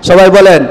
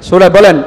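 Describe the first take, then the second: The two takes are said the same way.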